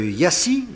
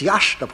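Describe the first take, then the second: First: The name ends with an 's-ee' sound. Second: The name ends with an 'sh' sound. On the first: The speaker calls it wrong. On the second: The speaker calls it right.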